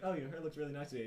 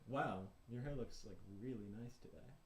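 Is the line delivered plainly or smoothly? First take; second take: plainly; smoothly. First: It is said plainly, not smoothly. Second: It is said in a smooth, flirty way.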